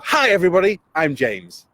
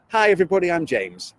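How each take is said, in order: First: "Hi everybody" higher and louder, lively; bigger energetic intro. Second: Said in the usual way. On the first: Shown as a demonstration. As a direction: pump up "Hi everybody" like a presenter. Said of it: "And I've got them to go". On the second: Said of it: "got them to do it both ways".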